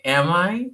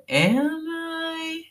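First: Said in the usual way. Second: Am I? squeaked very high; high mock question. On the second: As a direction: pitch Am I? way up, teasing. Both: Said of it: "ask me".

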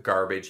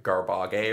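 First: Said in the usual way. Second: "garbage" said as gar-bah-gay, hard second G; mispronounced G word. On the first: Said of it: "instead of, like, garbage". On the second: Retold or imitated. Quoting a comic's bit on G, "garbage" as gar-bah-gay. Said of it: "he would say, like".

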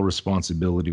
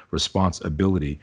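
First: Said in the usual way. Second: Responsibility said as two words, response and ability; hyphenated responsibility. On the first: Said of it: "with a hyphen". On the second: Shown as a demonstration. Speaker explaining his spelling to the host, responsibility split at the hyphen. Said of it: "I spell responsibility with a hyphen".

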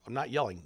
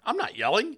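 First: Mildly raised, insistent protest; insist, short of a yell; defensive denial. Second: High, loud defensive outburst; mock yelling. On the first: Acted. Parent answering kids who hear yelling, mildly defensive. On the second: Loud-talking parent denying to the kids, mock yelling. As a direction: yell the denial, hammed-up. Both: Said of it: "my kids interpret it as yelling".

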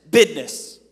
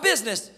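First: "business" said as "bidness", punched loud; dialect "business". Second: Said in the usual way. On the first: Shown as a demonstration. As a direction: say "business" with a d for the z, BID-ness. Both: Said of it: "Not business".

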